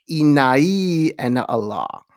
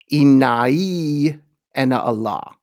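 First: "Innai ana Allah" said slowly, "ana" starting on an E sound; slow Arabic "Innai ana Allah", "ana" begun like "ena". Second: "Innai ana Allah" said slowly in Arabic, the "ana" opening on an open A; careful, slow Arabic "Innai ana Allah" with an A-sound "ana"; Arabic pronunciation. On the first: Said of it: "starts with the E sound". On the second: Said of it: "the Arabic sounds like". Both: Shown as a demonstration.

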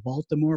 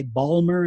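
First: Said in the usual way. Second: "Balmer" squeezed into two syllables, middle dropped; Maryland pronunciation. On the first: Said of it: "instead of Baltimore". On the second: Shown as a demonstration. Showing a listener the Maryland accent, "Balmer" in two syllables. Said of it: "They say Balmer instead of Baltimore".

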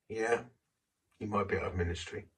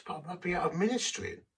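First: Quick, matter-of-fact echo of the plea; the inner voice answering flatly, not unkind; calm inner voice. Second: Higher, pleading objection; a man afraid of losing his ministry, protesting to God; anxious plea. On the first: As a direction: toss the words back lightly. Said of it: "This little voice said". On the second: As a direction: protest with rising worry. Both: Retold or imitated.

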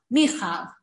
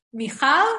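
First: "Michal" as MI-chal, first syllable punched, falling; stress on beginning. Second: "Michal" as mi-CHAL, lifted on the second syllable; end stress. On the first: Retold or imitated. Imitating how people say it, "Michal" stressed at the start. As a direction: hit the MI of "Michal", let the rest drop. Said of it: "people are always emphasized the beginning". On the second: Shown as a demonstration. Teacher giving the proper name, "Michal" stressed at the end. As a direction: rise onto the CHAL of "Michal". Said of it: "you emphasize the end of the syllable".

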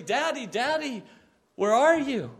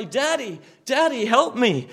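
First: Loud, higher, frantic calling out; desperate shout. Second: Loud, rising plea for help; crying for help. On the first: Lost child in a department store, desperate shout. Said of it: "starts shouting out desperately". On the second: Believer drawing near to God, loud cry for help. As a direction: call out to Daddy for help. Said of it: "and you cry". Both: Pretend.

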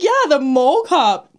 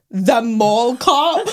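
First: Higher, drawn-out yeah, then falling; slow, matter-of-fact reply on a raised pitch; amused confirmation. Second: Drawn-out, rising disbelief; slow, mock-scornful query; disbelieving question. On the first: Retold or imitated. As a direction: confirm it as if obvious. Teller confirms to the man. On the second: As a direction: stretch it into an incredulous question. Retold man's disbelieving question.

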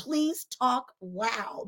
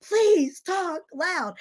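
First: Drawn-out teacher plea; slow plea. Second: Slow plea. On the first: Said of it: "and I'm going". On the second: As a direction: repeat it stretched out. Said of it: "And I'm like". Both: Retold or imitated.

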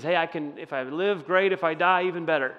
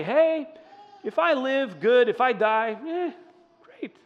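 First: Said in the usual way. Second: Light and high, shrugging off death; breezy, carefree. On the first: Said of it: "when he says". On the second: Pretend. Pastor voicing a carefree shrug at dying, breezy and high. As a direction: toss it off like it's nothing. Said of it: "People don't say".

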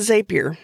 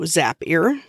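First: Zapier said as ZAY-peer; long-a pronunciation. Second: Zapier said as ZAP-ee-er; short-a pronunciation. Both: Shown as a demonstration. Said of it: "different people pronounce it different ways".

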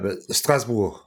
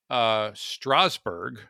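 First: Strasbourg said the French way, strahz-BOOR, no final g. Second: Strasbourg said slowly, American style, STRAZ-burg; drawn-out American Strasbourg. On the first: Guest correcting the host, French Strasbourg. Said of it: "No, no, it's". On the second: Host checking pronunciation, Strasbourg said slow and American. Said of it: "is it not pronounced Strasbourg?". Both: Shown as a demonstration.

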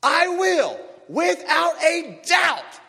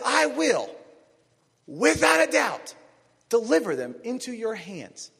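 First: High, loud, very slow shouted promise; emphatic shout. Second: High, loud and slow divine promise; voice of God. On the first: Shown as a demonstration. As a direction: shout each word as certain truth. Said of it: "repeated with more force". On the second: Acted. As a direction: declare it as God, stretching without a doubt. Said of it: "God says".

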